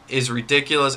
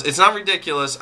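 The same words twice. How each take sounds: First: Said in the usual way. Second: Correcting himself with stress on "not". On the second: Shown as a demonstration. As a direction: lean hard on "not" to correct yourself.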